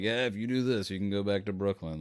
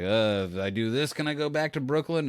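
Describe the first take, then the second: First: Lightly acted yes, settling downward at the end; casual assurance. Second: Lightly acted request, pitch climbing on the ask; hopeful question. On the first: Bosses tell the cop he can go back, casual assurance. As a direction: grant it offhand, as a statement. Others answer the cop's request. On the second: Movie cop asks to go back to Brooklyn, hopeful question. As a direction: ask as if bargaining for a favour. Film character asks to go home.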